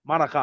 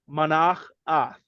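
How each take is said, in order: First: The name is said quickly as one word. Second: The name is said slowly, split into parts. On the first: "if you say it fast" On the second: "when you see it"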